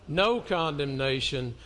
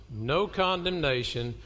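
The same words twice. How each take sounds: The two takes are said the same way.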